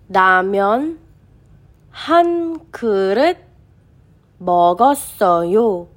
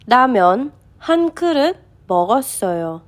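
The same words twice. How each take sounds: First: The sentence is read at a slower pace. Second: The sentence is read at a faster pace.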